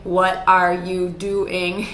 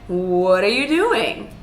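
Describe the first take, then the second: First: The pitch stays flat and robotic throughout. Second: The pitch goes up, then falls at the end. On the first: The speaker calls it wrong. "you're not a robot either, right? So we don't want to say" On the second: The speaker calls it right. "We want to say, ... So use melody when you ask a question"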